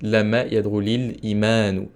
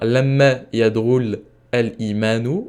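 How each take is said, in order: First: An i vowel links the verb to imanu. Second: The verb ends in a consonant before al-imanu. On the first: The speaker calls it right. "ça va se terminer par un i" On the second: The speaker calls it wrong. "au lieu de dire lamma yadrul al-imanu"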